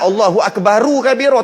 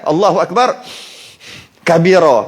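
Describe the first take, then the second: First: Akbar is followed by a u vowel. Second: Akbar ends on r with no vowel. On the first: The speaker calls it wrong. "Mestilah Allahu Akbaru kabira. Tak nampak bagi depan tu" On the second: The speaker calls it right. "Baru betul sebab mati"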